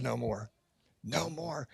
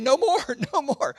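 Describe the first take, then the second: First: Much softer, lower hushed no more; quiet scripture echo. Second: High, loud laughing protest; insisting no more. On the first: People in Scripture refusing gifts, hushed and soft. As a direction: let it fall away reverently. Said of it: "where people said". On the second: Pastor to Facebook donors, laughing no more. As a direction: wave off the extra gifts with a laugh. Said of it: "I kept saying". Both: Retold or imitated.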